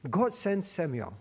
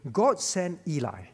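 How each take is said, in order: First: Said in the usual way. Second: Unvoiced slip of the tongue; a whispered mistake. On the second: Real, not acted. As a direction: breathe the wrong name without voice. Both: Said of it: "Eh, God sent Samuel".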